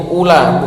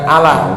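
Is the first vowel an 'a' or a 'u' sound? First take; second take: u; a. First: The word begins with a 'u' vowel. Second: The word begins with an 'a' vowel. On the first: The speaker calls it right. "Jadi bacanya itu ula" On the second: The speaker calls it wrong. "bukan ala"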